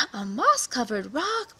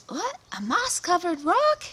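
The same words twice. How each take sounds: First: Slow, breathy "A moss-covered rock." with "rock" rising; awed gasp. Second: High, loud gasping "A moss-covered rock?" rising at the end; shocked gasp. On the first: Lion gasps at the rock. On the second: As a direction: sound stunned as you spot the rock, with "rock" rising high. Visitor discovers the magic rock. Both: Acted.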